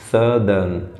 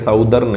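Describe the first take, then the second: First: The first vowel sounds like 'uh' in sun. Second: The first vowel sounds like 'ow' in south. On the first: The speaker calls it right. "It is सदर्न" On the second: The speaker calls it wrong. "ये साउथर्न या साउदर्न नहीं है"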